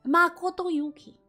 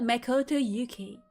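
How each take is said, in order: First: The A is said like an open 'ah'. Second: The A is said like 'ay', American style. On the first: The speaker calls it right. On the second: The speaker calls it wrong.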